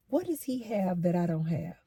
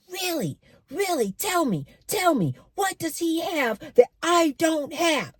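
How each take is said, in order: First: Soft, subdued retold question; quietly hurt. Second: High-pitched, insistent upset demand; really upset. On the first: Man confronting the woman about his rival, quietly hurt. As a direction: ask it quietly, holding the upset in. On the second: Retold or imitated. Man demanding answers about his rival, really upset. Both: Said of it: "he's getting real upset".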